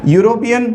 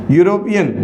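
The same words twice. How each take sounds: The two takes are said the same way.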